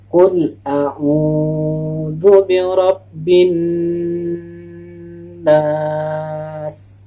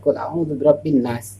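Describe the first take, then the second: First: The vowel in a'udzu is held long. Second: The vowel in a'udzu is cut short. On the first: The speaker calls it right. "kalau kita baca dengan benar, sesuai dengan panjang pendeknya" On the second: The speaker calls it wrong.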